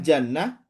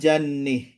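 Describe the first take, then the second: First: The final vowel is a plain open 'a'. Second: The final vowel is fronted toward 'e'. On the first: "pakai fathah" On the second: "dengan imalah"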